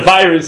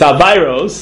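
First: It is said in a standard English pronunciation. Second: It is said in a Satmar-style Yiddish pronunciation. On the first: It refers to an illness. "It's not a virus" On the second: It refers to sins. "that's how they say it in Satmar"

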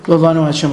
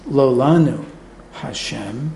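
First: The words run together without any pause. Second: There is a pause after lo lanu. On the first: The nuance of addressing God is lost. The speaker calls it wrong. "it's just going to flow together" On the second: It is not us, Hashem; the words address God. The speaker calls it right. "If you really want to do it right"

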